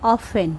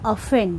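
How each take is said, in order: First: The t sound is silent in the middle. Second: The t sound is silent in the middle.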